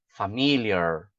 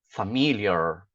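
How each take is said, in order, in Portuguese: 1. O r final tem a língua enrolada. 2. O r final tem a língua enrolada.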